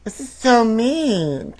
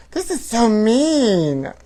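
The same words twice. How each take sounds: First: "so" leaned on, high and slow; mock outrage, stress on so. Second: Drawn-out, high mock dismay; mock outrage. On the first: Host repeating line, stressing "so" in mock dismay. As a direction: lean hard on "so". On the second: Host reading tabloid, clutching pearls, mock outrage. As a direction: clutch pearls over the gossip.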